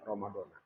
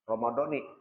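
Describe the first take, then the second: First: The word ends with an a vowel. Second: The word ends with an i vowel. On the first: The word stands without a following word. "Kalau enggak pakai hazihi, Ramadhana" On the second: The word is joined to a following word. "kalau pakai hazihi, Ramadhani"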